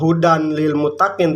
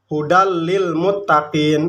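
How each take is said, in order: First: The n sound is clearly heard before l. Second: The n sound merges into the following l. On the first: The speaker calls it wrong. "enggak hudan lil muttaqin" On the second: The speaker calls it right. "tapi hudal"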